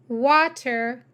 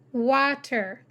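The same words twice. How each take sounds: The two takes are said the same way.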